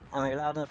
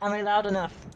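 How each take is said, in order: First: The question is said at normal volume. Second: The question is said loudly. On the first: "This is my usual talking voice" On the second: "I said that too loud"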